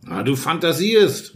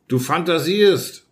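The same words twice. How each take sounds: First: Slow, drawn-out exclamation; mild exclaimed dismissal; calling out. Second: Slow, drawn-out angry retort; a hint of rage, held back; mild read-aloud fury; furious shout, understated. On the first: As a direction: call it out in disbelief. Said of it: "rief er". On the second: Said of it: "schrie ich in äußerster Wut". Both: A narrator's reading.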